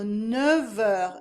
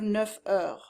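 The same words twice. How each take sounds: First: Neuf ends in a v sound before heures. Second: Neuf ends in an f sound before heures. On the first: The speaker calls it right. "transforms into a V sound" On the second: The speaker calls it wrong. "instead of"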